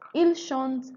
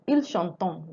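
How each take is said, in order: First: The verb ending is left silent. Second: The verb ending is pronounced aloud. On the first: The speaker calls it right. "That's how it's read" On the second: The speaker calls it wrong. "let's say we want to pronounce the ent"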